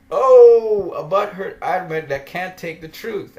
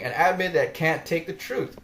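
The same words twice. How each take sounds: First: A sudden loud \"Oh\", then \"butthurt\" rising in scorn; jeering at a sulky admin; mocking taunt. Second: Said in the usual way. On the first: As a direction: taunt him with a loud gleeful oh. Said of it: "And I'm laughing". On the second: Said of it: "I'm saying".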